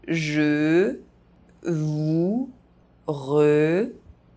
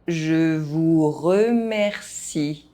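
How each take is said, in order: First: The phrase is spoken very slowly. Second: The phrase is spoken at normal pace. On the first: "very slowly" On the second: "at a normal pace"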